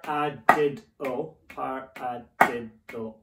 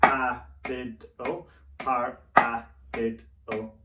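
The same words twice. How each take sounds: First: Counted paradiddle with "did" punched, "a" and "o" kept small; accent on the third syllable. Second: Counted paradiddle with "a" punched, "did" and "o" kept small; accent on the second syllable. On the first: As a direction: hit "did" each time, keep the other syllables light. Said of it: "let's try it on the third note". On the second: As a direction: hit "a" each time, keep the other syllables light. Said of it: "paradiddle with the accent on the second note". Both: Shown as a demonstration.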